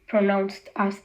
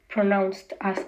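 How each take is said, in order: No difference in how they are said.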